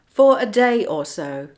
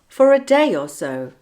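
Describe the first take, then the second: First: The words are said separately, without linking sounds. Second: The words run together with a linking sound. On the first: "without linking" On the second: "with the linking"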